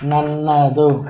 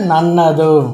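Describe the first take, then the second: First: The word is said in its full form. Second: The same.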